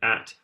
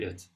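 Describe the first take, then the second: First: The word has a full, clear vowel. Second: The word has a weak, reduced vowel. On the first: The speaker calls it wrong. "We would never say at" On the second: The speaker calls it right. "we say it"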